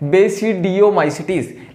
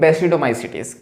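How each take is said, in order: First: The word is said with a 'dee-oh' syllable. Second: The word is said with a 'doh' syllable. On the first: This is how the word is spelled. "क्या लिखा है" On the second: This is how the word is read in English. "इसको पढ़ते हैं English में"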